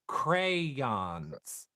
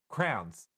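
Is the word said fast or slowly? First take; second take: slowly; fast. First: The word is said slowly and fully. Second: The word is said fast and squeezed together.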